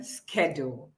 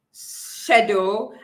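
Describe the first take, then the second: First: "schedule" with a hard SK at the start; American "schedule", opening on SK; American pronunciation. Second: British "schedule", opening on SH; British pronunciation. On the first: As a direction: say "schedule" as SKED-ule, the American way. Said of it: "and the American schedule". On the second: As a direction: say "schedule" as SHED-yool, the British way. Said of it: "an example is the British". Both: Shown as a demonstration.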